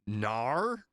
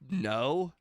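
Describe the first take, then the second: First: The word is said with a broad Australian accent. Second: The word is said with a plain American accent.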